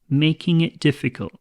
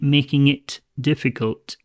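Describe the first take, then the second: First: The T at the end of it is dropped. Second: The T at the end of it is pronounced. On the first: The speaker calls it right. "this T, we can actually drop it. So it's just it" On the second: The speaker calls it wrong. "I'm not saying"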